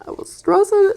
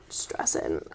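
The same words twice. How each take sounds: First: Said in the usual way. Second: Whispered. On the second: Real, not acted. Repeats word, first whispered.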